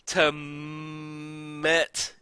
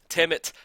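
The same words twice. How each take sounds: First: The M is said hard and strongly pressed. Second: The M is said in the ordinary soft way.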